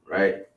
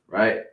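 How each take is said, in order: Both takes have the same delivery.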